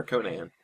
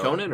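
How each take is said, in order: First: "Conan" as KOH-nan, clear short-a ending; Conan with full ending. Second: "Conan" as KOH-nun, weak second vowel; Conan with reduced ending. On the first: Putting the choice to co-hosts, "Conan" said KOH-nan. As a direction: say "Conan" to rhyme its end with "man". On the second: Putting the choice to co-hosts, "Conan" said KOH-nun. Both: Shown as a demonstration. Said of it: "Conan or Conan?".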